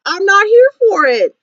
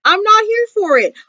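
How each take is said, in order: First: Said in the usual way. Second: Not punched and lifted; stress on NOT. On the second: Shown as a demonstration. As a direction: lean hard on not to refuse.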